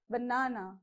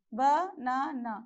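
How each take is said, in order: First: BaNAna as one word, middle syllable stressed; stress on second syllable. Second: Banana in three slow separate beats, ba, na, na; split into syllables. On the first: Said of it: "on the second syllable". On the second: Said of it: "There are three syllables". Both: Shown as a demonstration.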